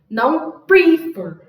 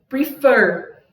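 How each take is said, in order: First: The stress is on the first syllable. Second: The stress is on the last syllable. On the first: The speaker calls it wrong. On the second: The speaker calls it right. "Se a última vogal ela vem gritando, ela vem mais forte"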